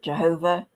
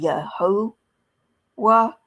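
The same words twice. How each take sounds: First: "Jehovah" with a J and a V sound; "Jehovah" with J as in jay and V as in vee; Witnesses' pronunciation. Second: "Yehovah" starting with Y, the V softened to W; "Yehovah" slow and broken before a final "wah"; suggested Hebrew pronunciation. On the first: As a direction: say "Jehovah" the usual English way, starting with J. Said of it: "the Jehovah's Witnesses pronounce it". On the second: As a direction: sound out "Yehovah" slowly as ye-ho-wah. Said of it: "I don't think they have the V sound". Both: Shown as a demonstration.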